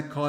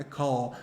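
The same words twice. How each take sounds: First: "call" ending in a light L; the wrong "call", clear front L; L with tongue on teeth. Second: "call" ending in a low, soft dark L; "call" with a swallowed, back-of-mouth L. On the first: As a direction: say "call" with the tongue tip touching behind the teeth on the L. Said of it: "não é um L que a língua". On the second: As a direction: say "call" with the back of the tongue raised on the L. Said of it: "A língua vai se elevar um pouquinho aqui atrás". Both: Shown as a demonstration.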